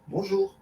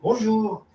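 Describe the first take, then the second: First: The greeting is said softly and timidly. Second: The greeting is said loudly and cheerfully. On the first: It matches a neighbour's small, shy greeting. "discrètement" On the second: It matches a neighbour's big, hearty greeting. "de suivre son intonation"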